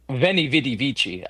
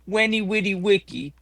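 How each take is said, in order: First: The words begin with a V sound. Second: The words begin with a W sound. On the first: The speaker calls it wrong. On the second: The speaker calls it right.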